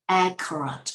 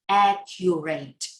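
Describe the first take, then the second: First: The word is said in an American English accent. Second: The word is said in an Asian English accent. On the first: The speaker calls it right. "In American English, the real English, we pronounce this word accurate" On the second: The speaker calls it wrong.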